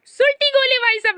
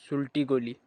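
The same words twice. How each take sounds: First: High, loud punchline shout; excited catchphrase. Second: Low, soft deadpan aside; murmured catchphrase. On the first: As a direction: call it out like a hype line. Catchphrase called out. (ऊँची, ज़ोरदार आवाज़ में punchline) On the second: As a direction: drop it quietly as a punchline. (धीमी, नीची आवाज़ में punchline) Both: Acted.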